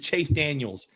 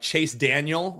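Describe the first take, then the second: First: The surname ends with an added s sound. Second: The surname ends without an s sound. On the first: The speaker calls it wrong. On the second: The speaker calls it right.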